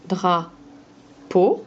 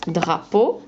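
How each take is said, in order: First: "drapeau" slowly in two beats, dra, long pause, peau; split into syllables. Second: Said in the usual way. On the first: Shown as a demonstration. Teacher showing a pupil both parts of "drapeau", syllable by syllable. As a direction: break "drapeau" after dra and lift each half. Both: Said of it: "On enlève la deuxième syllabe".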